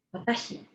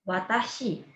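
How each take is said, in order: First: Watashi whispered without voice; whispered repeat. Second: Said in the usual way. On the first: Shown as a demonstration. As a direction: breathe Watashi softly for learners. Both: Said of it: "aku adalah".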